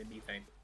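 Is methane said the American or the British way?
British. The word is said with a British pronunciation. "I say methane. Because I'm British"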